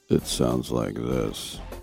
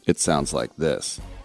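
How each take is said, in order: First: It is said in a smooth FM radio voice. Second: It is said in a punchy AM radio voice.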